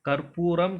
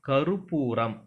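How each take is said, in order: First: There is no vowel between the r and p. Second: A short u vowel follows the r sound. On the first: The speaker calls it wrong. "கற்பூரம் கிடையாது" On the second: The speaker calls it right. "கருப்பூரம் அப்படின்னு தான் சொல்லணும்"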